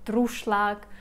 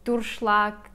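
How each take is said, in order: No difference in how they are said.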